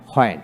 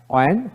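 First: হয়েন begun with an audible h; sounded H. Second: অয়েন begun on a rounded vowel, no h. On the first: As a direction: say হয়েন as "ho-en", for "when". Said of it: "হয়েন উচ্চারিত হয়". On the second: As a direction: say অয়েন as "o-en", for "when". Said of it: "অয়েন উচ্চারিত". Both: Shown as a demonstration.

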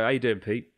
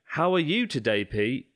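First: "How you doing" run together as one casual word; compressed colloquial British. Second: "How are you today" fully enunciated, word by word, higher; over-articulate "How are you today" as separate words; separated careful words. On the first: Host showing how Brits really greet, "How you doing" squashed together. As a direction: slur "How you doing" into a quick blend. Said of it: "when you put words together fast". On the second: Host showing what Brits don't say, "How are you" said formally. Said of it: "we don't go". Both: Shown as a demonstration.

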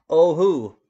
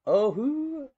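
First: Loud eager "Oh, who?"; loud joke reply. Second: Very high squeaky "Oh, who?"; squeaky high joke reply. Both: Pretend.

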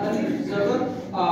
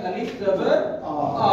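First: Said in the usual way. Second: अलिफ जबर आ said slowly, each part set apart, आ drawn out; teacher slowly sounds out अलिफ जबर आ for the class; slow, spelled-out demo. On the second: Shown as a demonstration. Teacher spelling out अलिफ जबर आ slowly for pupils. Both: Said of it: "क्या बन गया?".

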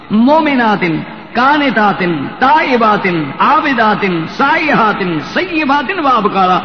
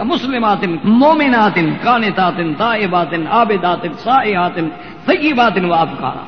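First: Each word called out louder, falling at the end; preacher calling out the list with force; emphatic preaching. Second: Sung, each word intoned and set apart, falling at the end; sung, recite each attribute with a falling close; sung, measured recitation. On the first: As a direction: proclaim each word to the congregation. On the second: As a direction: chant the list slowly like a reciter. Recites list of Quranic attributes. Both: Acted.

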